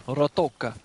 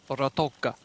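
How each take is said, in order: No difference in how they are said.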